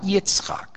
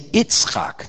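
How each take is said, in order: First: The name starts with a y sound. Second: The name starts without a y sound. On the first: This is the full form of the name. "not Yitzchak" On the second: This is how people commonly say it. "They say Yitzchak, I'm referring to the first letter of Yitzchak"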